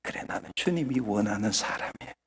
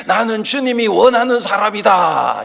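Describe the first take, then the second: First: Very soft, low inward murmur; 속으로 말하듯. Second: 크게 외침. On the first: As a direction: say it privately to yourself, hushed. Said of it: "속으로 하라 그러니까". (속으로 되뇌듯 아주 작고 낮게) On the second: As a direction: call it out as a proclamation. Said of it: "스스로 크게 한번 외쳐보십시다". (크게 외치는 선창) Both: Shown as a demonstration.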